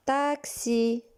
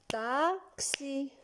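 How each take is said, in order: First: Said in the usual way. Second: Taxi much softer, split into beats; clapped syllables. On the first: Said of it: "tapez des mains". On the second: Shown as a demonstration. Teacher claps the word again with children, soft syllable beats. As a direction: clap out Taxi gently, one beat per syllable. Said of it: "Encore une fois, tapez des mains".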